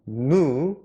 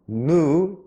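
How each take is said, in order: First: It is said with an American pronunciation. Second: The same.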